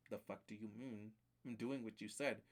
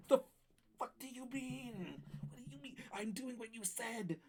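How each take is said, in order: First: Low, soft, baffled protest; baffled retort. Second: Strangled mock outrage. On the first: Retold or imitated. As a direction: object under your breath to the game. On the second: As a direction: stretch it into a tiny high-pitched protest. Escalated retort to the game.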